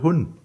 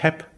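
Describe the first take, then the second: First: The verb is said with a u vowel. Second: The verb is said with an e vowel. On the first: This is the northern Palatinate form. "gehen in die Nordpfalz, ja, dann sagen die Leute hun" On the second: This is the southern front Palatinate form. "wenn Sie in die südliche Vorderpfalz gehen, dann sagen die ich heb"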